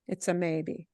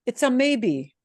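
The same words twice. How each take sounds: First: Soft echo. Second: Said in the usual way. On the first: Shown as a demonstration. Teacher softly repeats the point to students. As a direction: lower and softer, pushing "a".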